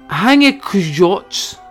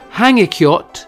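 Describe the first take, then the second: First: The j is said like an English j. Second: The j is said like an English y. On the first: The speaker calls it wrong. "that's a yes, sir, not a j" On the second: The speaker calls it right. "the J is more of a Y sound"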